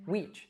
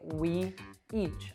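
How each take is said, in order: First: The two words blend into one. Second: The two words are said separately. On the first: The speaker calls it right. "I'd say weech" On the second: The speaker calls it wrong. "I wouldn't say we each"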